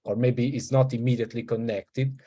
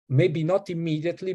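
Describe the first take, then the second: First: Said in the usual way. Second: Not lifted higher with a rise; stress on not. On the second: Shown as a demonstration. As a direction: raise the pitch on not.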